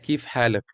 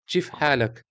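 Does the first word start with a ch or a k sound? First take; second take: k; ch. First: The first word starts with a k sound. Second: The first word starts with a ch sound. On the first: This is the more standard form. "não é kif halak" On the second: This is the rural Palestinian dialect. "é o caipira árabe, exatamente. Chif halak"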